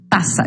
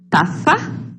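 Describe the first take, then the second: First: The middle consonant is said as a hissing 's'. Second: The middle consonant is said with tongue between teeth. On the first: "Também vai ser pronunciado como ta, taça" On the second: "seria pronunciado com a língua entre os dentes"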